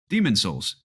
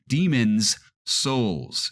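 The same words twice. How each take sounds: First: The s sounds between the words run together. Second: The s sounds between the words are kept separate. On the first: The speaker calls it wrong. "people just say Demon's Souls" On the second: The speaker calls it right. "when you pronounce it correctly"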